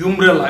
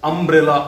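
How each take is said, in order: First: Umbrella mispronounced as "yum-brel-la"; loud "umbrella" with a wrong y-glide in front; wrong pronunciation. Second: Umbrella opening on a short "uh" vowel; "umbrella" with an initial "um", no y-glide; correct pronunciation. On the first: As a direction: say umbrella with the letter name "you" at the start. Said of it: "It will not be pronounced as". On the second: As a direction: say umbrella as "um-brel-la", starting on a vowel sound. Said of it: "we pronounce it". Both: Shown as a demonstration.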